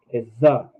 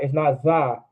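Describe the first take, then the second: First: Za with a light short ah; "za" said lightly, no extra ah; correct za. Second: Za with a heavy stressed ah; "za" with the vowel pushed too hard; wrong za. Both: Shown as a demonstration.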